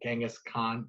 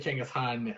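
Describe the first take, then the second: First: The name is said with an American pronunciation. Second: The name is said with a Mongolian pronunciation. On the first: "how do you say it in America?" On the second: "that's how you say it, I guess, in Mongolia"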